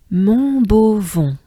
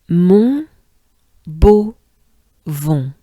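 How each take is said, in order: First: Slow "Mon beau vent" as one word, nasal ends; blended Montbeauvon. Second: "Mon" "beau" "vent" split, nasal "vent"; syllable by syllable. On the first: Teacher joining the syllables of Montbeauvon. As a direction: glide "Mon beau vent" together slowly. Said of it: "Let's try it together". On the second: Teacher spelling out Montbeauvon syllable by syllable. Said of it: "it goes like this". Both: Shown as a demonstration.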